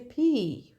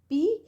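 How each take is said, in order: First: The P is said with a puff of air. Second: The P is said without a puff of air. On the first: "the English speaker they, they say P, right? This way. P H also come" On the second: "Sometimes we say P"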